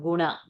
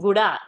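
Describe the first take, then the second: First: The middle consonant is an n sound. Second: The middle consonant is a d sound. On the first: The speaker calls it wrong. "not guna" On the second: The speaker calls it right. "No, darling, guda"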